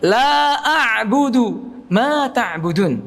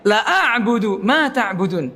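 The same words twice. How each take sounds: First: The first vowel is held long. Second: The first vowel is cut short. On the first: I do not worship what you worship. The speaker calls it right. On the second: Indeed I worship what you worship. The speaker calls it wrong.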